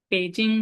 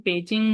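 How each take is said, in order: Both takes have the same delivery.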